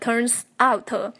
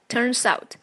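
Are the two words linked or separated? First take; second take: separated; linked. First: The two words are said separately, not linked. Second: The two words are linked into one unit. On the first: The speaker calls it wrong. "不要读成turns out end up" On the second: The speaker calls it right. "记得连读"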